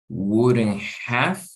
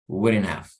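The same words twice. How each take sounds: First: The h in have is clearly pronounced. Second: The h in have is softened or dropped. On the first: "instead of saying wouldn't have" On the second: "you can say wouldn't have, wouldn't have. So trying to ignore the H"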